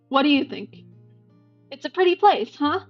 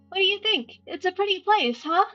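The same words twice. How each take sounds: First: It is said in his natural voice. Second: It is said in a put-on character voice.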